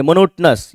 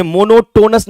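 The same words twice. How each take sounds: First: मोनोटोनस as "mo-NOT-nus", third vowel dropped; correct pronunciation. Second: मोनोटोनस with a full "TOE-nus" ending; wrong pronunciation. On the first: Teacher showing students the right reading, मोनोटोनस as "monot-nus". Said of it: "मोनोटोनस ये पढ़ेंगे आप". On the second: Teacher showing what not to read, मोनोटोनस as "mono-tone-us". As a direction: mispronounce मोनोटोनस as mono-TOE-nus, long o in third syllable. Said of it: "इसे मोनोटोनस नहीं पढ़ेंगे". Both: Shown as a demonstration.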